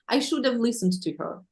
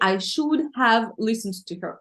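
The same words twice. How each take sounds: First: 'Have' is reduced and linked to 'should'. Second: 'Have' is pronounced in full, clearly separate. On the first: The speaker calls it right. "we usually pronounce this have in a little bit different way" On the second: The speaker calls it wrong. "We never say"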